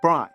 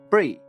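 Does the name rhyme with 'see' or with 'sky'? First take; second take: sky; see. First: The name rhymes with 'sky'. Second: The name rhymes with 'see'. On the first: The speaker calls it wrong. "not Bry" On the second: The speaker calls it right. "my name is pronounced like the cheese Brie"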